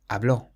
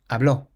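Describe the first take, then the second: First: The stress is on the last syllable. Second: The same.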